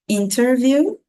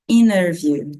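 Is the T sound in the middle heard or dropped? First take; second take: heard; dropped. First: The T sound after the N is pronounced. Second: The T sound after the N is dropped. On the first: "você pode tanto falar o T com o, o som de T" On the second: "tirando ali o som do T"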